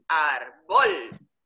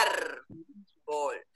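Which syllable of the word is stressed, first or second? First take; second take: second; first. First: The stress is on the second syllable. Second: The stress is on the first syllable. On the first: The speaker calls it wrong. "Tú no dices árbol" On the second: The speaker calls it right. "la fuerza la tiene en la primera sílaba"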